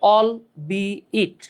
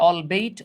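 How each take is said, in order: First: The second part sounds like 'be it'. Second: The second part sounds like 'bait'. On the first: The speaker calls it right. "এটার উচ্চারণ হচ্ছে অল বি ইট" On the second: The speaker calls it wrong. "অনেকে উচ্চারণ করে অল বেইট"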